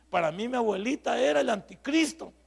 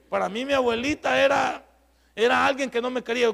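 First: Said in the usual way. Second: "Para mí mi abuelita era" said again, louder and higher; preacher restates "abuelita era" louder to the congregation, louder emphatic restatement. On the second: Real, not acted. Raise the voice on the repeat.

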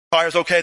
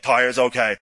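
First: "Tires okay?" asked as a check; questioning. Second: "Tires okay." as a lower, falling answer; confirming. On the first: Leader to his guys at the jeep, "Tires okay?" as a question. Leader asks, team answers. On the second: Guys back to their leader, "Tires okay." as falling confirmation. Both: Acted.

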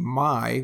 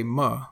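First: Said in the usual way. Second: "ma" for my, with a short uh vowel. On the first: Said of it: "instead of saying my". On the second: Shown as a demonstration. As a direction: reduce my to a quick "ma". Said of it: "instead of saying my, we say ma".

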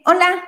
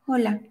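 First: Saludo agudo de la chica, un poco más alto; chica saludando. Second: "Hola" más grave y suave, seco; el hombre contesta bajo y sin ganas; hombre responde. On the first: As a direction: dilo como la chica que llama su atención, arriba. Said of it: "voltea y le dice". (la chica saluda con un "Hola" más agudo) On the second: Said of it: "Por fin el hombre voltea y le dice". (el hombre responde con un "Hola" grave y suave) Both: Acted.

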